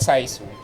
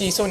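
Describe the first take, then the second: First: The first syllable sounds like 'sigh'. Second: The first syllable sounds like 'see'. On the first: The speaker calls it wrong. "not Saisu" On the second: The speaker calls it right. "It's Sisu"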